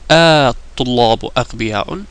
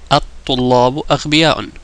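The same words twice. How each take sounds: First: The opening vowel is stretched long. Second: The opening vowel is short, not stretched. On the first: It is a question. "I have to kind of stretch it" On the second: It is a plain statement. "if I don't say that"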